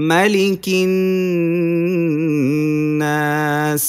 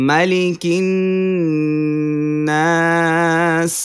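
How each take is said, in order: The two takes are said the same way.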